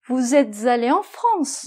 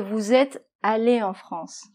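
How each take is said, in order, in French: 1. Un son z lie êtes à allé. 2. Aucun son z ne lie êtes à allé. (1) "Un autre exemple" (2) "Au lieu de"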